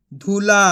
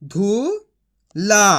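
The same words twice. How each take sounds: First: Said in the usual way. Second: Sounding out. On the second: Shown as a demonstration. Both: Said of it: "तो मिलके बन जाएगा".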